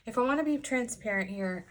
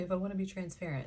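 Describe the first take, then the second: First: Said in the usual way. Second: Quick, softer parroting of her own habit; mocking own phrase. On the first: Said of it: "Why do I say that?". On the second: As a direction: rattle it off as if teasing yourself. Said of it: "Why do I say".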